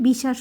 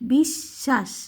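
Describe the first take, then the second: First: The middle sh sound is short and single. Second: The middle sh sound is held and doubled. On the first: The speaker calls it wrong. "যদি শুধু তালু বস থাকতো তাহলে বিশ্বাস হতো" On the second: The speaker calls it right. "ব থাকাতে বিশ্বাস ... একটু ধাক্কা দিয়ে"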